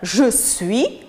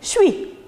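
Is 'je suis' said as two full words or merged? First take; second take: full; merged. First: Both words are said fully and separately. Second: The two words are merged into one syllable. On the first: "au lieu de prononcer le sujet et le verbe « je suis »" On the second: "il les rassemble dans un seul mot"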